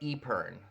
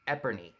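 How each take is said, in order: First: The word ends without an added 'ee' syllable. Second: The word ends with an added 'ee' syllable. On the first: The speaker calls it right. "instead of Epern. Scott told me that's what that is" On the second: The speaker calls it wrong. "I thought it was pronounced Eperney"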